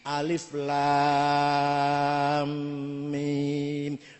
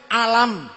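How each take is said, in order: First: Each letter name is said separately and lengthened. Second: The letters are run together into one short word. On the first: This is how the rules of recitation say to read it. The speaker calls it right. "sing iki alif lam mim mad lazim" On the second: This is how it is read without the rules of recitation. The speaker calls it wrong. "nek ana ora ana ilmu tajwid, kula dhewe macane alam"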